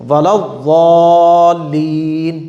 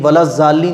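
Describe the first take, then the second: First: The key consonant is a heavy d-like sound. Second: The key consonant is said as a plain z. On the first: The speaker calls it right. "ना तो दाल है ना ये जा है" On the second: The speaker calls it wrong. "ये भी गलत"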